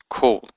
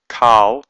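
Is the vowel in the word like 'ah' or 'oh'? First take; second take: oh; ah. First: The vowel sounds like 'oh'. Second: The vowel sounds like 'ah'. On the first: The speaker calls it right. "it's pronounced kol" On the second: The speaker calls it wrong. "It's not pronounced kal"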